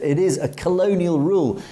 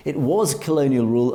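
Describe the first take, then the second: First: IS stressed within the phrase. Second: WAS stressed within the phrase. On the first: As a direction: lean on the word IS. Corrects is to was. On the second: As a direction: lean on the word WAS. Contrasts was with is. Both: Real, not acted.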